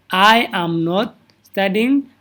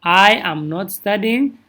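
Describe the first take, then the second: First: Each word spaced out slowly; slow, careful classroom model; slow model sentence. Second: A slow, careful repeat; steady teacher repetition; slow model sentence. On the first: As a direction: say it slowly so students can copy. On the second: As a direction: model it again slowly for the class. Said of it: "Inta I haddaad ku darto". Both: Shown as a demonstration.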